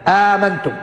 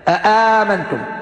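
First: One glottal stop, then a long vowel. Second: Two glottal stops, then a long vowel. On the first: "بإسقاط الهمزة الأولى وتحقيق الهمزة الثانية بعدها ألف" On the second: "يحققون الهمزتين"

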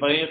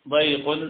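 First: The y sound is light and single. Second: The y sound is doubled and stressed. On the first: "التخفيف" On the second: "والتجديد"

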